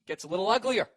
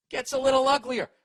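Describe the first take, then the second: First: Said in the usual way. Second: "Gets a little uglier" diucapkan lebih tinggi dan lebih keras; ominous emphasis. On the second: Shown as a demonstration. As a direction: push "little" up and loud, like things turning nasty.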